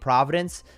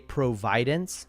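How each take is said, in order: First: The stress is on the first syllable. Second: The stress is on the second syllable. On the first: "Instead of saying providence" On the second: "say providence. So it's God providing something for us"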